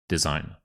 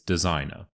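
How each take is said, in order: No difference in how they are said.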